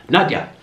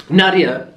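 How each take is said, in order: First: Nadia said as NAHD-yah, two syllables; the correction, Nadia squeezed into NAHD-yah; corrected pronunciation. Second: Nadia said as NAH-dee-ah, three syllables; the first try at Nadia, in three syllables NAH-dee-ah; wrong pronunciation. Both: Shown as a demonstration. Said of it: "I say her name wrong".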